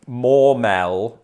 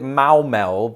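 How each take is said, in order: First: The first vowel sounds like 'or', British-style. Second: The first vowel sounds like 'ow' in cowbell. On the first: "That sounds like a very British pronunciation" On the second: "it rhymes with cowbell"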